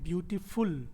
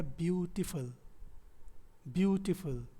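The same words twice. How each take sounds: First: ब्यूटीफुल ending in a full ऊ sound; ब्यूटीफुल with its last syllable like "full"; common mispronunciation. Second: ब्यूटीफुल with a weak, short f'l ending; ब्यूटीफुल said as BYOO-ti-f'l; correct reduced ending. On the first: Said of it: "ज़्यादातर लोग इसको pronounce करते हैं". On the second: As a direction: end ब्यूटीफुल on फल, with no ऊ sound. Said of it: "कोई ऊ का साउंड नहीं होता". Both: Shown as a demonstration.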